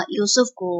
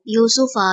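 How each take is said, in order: First: Said in the usual way. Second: یوسفا said the Arabic way with a final a and a falling end; Arabic recitation. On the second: Shown as a demonstration. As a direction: recite یوسفا as in Quran reading. Arabic word, then Urdu gloss. (یوسفا عربی تلفظ میں، آخر میں زبر کے ساتھ)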